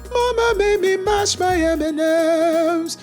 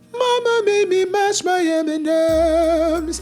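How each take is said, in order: Both takes have the same delivery.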